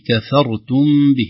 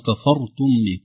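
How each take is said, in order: First: The k and f are light, only r heavy. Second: The k and f are heavy like the r. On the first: The speaker calls it right. "ينبغي علينا أن نراعي ترقيق الكاف والفاء ثم تفخيم الراء" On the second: The speaker calls it wrong. "فيفخم الكاف ويفخم الفاء"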